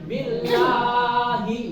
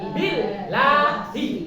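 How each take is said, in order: First: The L sound is heavy and dark, like lo. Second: The L sound is light and thin, like la. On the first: The speaker calls it wrong. "Jangan billahi. Salah" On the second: The speaker calls it right. "ketika kasroh bertemu dengan Allah maka la"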